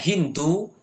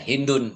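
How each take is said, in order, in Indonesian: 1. Nama itu diakhiri vokal, tanpa n. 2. Nama itu diakhiri bunyi n. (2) "maka boleh di sini tanwin"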